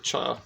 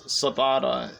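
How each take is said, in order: First: It begins with a 'ch' sound. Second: It begins with a 'see' sound. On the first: The speaker calls it right. "but it's actually cha" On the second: The speaker calls it wrong. "it looks like it would be pronounced as ciabatta in English"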